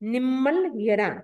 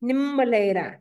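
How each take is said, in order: First: The word is split into two separate parts. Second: The syllables are merged into one run-together word. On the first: The speaker calls it right. "ऐसे उच्चारण क्या करना है" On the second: The speaker calls it wrong. "अधिकांश व्यक्ति करते क्या करते हैं, निम्मलेरा नहीं"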